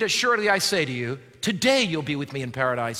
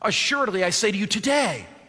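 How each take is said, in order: First: The pause comes before the word today. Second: The pause comes after the word today.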